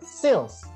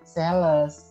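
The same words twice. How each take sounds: First: The word is said quickly and briefly. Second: The word is said slowly and drawn out. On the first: The speaker calls it right. "Tapi harus cepet" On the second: The speaker calls it wrong. "sales ini nggak boleh sales"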